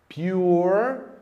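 The R sound is strong and clearly present. This is the American pronunciation. "no inglês norte-americano a pronúncia dele fica bem mais presente"

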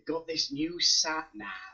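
It is said in an imitated Welsh accent. "I like your Welsh accent"

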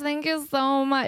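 It is said in a light, natural speaking voice. The speaker calls it right. "It probably sounded more like that"

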